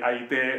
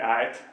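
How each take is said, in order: First: The word ends in a long e sound. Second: The word ends in a short e plus t. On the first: This is the Ostrobothnian dialect form. "näku pohjalaiset" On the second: This is the Savo dialect form. "näku savolaiset"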